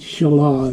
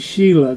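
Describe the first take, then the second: First: It does not sound like the name Sheila. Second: It sounds like the woman's name Sheila. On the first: The speaker calls it right. "Shelah is probably the better way to pronounce that name" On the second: The speaker calls it wrong. "it sounds too much like a woman's name in our culture"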